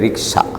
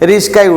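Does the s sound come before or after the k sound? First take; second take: after; before. First: The k sound comes before the s sound. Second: The s sound comes before the k sound. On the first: The speaker calls it right. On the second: The speaker calls it wrong.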